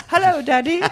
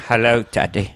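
First: Put-on very high, prim little British kid; British-accented child. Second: Put-on small boy with an old Cockney actor's voice; thick, put-on Cockney greeting; Michael Caine. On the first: Kid answering dad's call, high British accent. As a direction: pipe up as a tiny British child. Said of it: "The kid developed a British accent". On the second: Little brother answering dad, Michael Caine voice. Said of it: "Michael Caine".

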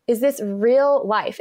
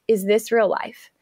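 First: Slow, drawn-out "real life"; emphatic disbelief. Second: Said in the usual way. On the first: Retold or imitated. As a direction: repeat it slower, leaning on "real". Repeats own incredulous thought for emphasis.

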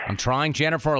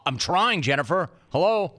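First: Casual delivery. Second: Higher, rising to an indignant "Hello?"; exasperated. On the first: Host tries out the tweet aloud, light and casual. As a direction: say it like a casual shrug. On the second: Host performs the tweet as an exasperated retort. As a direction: sell it like you can't believe she's asking. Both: Shown as a demonstration. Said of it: "how would it have sounded?".

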